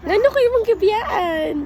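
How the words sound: The line is said in a supportive tone. "first kay supportive, supportive"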